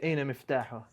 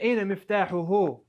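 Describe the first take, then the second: First: The phrase ends on a bare h sound. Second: The phrase ends with a final u vowel. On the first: The speaker calls it right. "I would say Aina miftahuh" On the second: The speaker calls it wrong. "I wouldn't say Aina miftahuhu"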